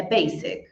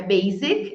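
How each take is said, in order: First: Basic as BAY-sik, hissed s; S sound. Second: Basic wrongly as BAY-zik; mistaken Z sound. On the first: Teacher correcting students, basic with an S. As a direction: keep the s in basic voiceless. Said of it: "Com som de S". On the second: Teacher showing the common slip, basic with a Z. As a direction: buzz the s in basic. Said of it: "de Z". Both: Shown as a demonstration.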